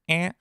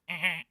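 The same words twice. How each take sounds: First: It is a plain, normal vowel sound. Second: It is a harsh buzzing, scoreboard-like sound.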